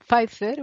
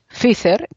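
First: The name is pronounced the English way. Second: The name is pronounced the Spanish way. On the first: The speaker wants to seem to know English. "si quieres hacer como que sabes inglés, pues di Pfizer o algo parecido" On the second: This is how it has always been said in Spain. "pues dices Pfizer, que es lo que hemos dicho en España siempre"

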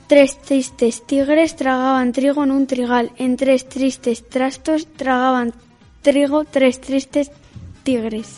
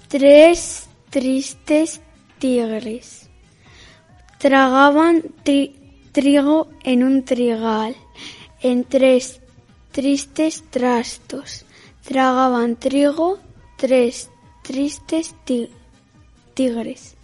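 First: It is said at normal speed. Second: It is said slowly.

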